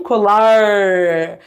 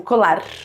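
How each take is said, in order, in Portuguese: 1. O r é curvado para trás, com a língua bem alta. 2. O r é uma batida rápida da língua. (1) "A língua bem lá em cima, a gente chama esse movimento de retroflexo" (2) "que é o som de tep, é a língua batendo na boca"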